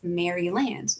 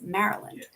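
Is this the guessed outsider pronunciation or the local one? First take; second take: guessed; local. First: Said the way an outsider would guess it. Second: Said the way local people say it. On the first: The speaker calls it wrong. "it looks like it would be pronounced Maryland" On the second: The speaker calls it right. "No, it's Maryland"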